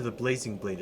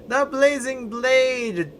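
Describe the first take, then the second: First: Said in the usual way. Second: "The Blazing Blade!" called out high, slow and loud like a trailer; hammed-up title call. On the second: Shown as a demonstration. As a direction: announce "The Blazing Blade!" as a grand, drawn-out epic title.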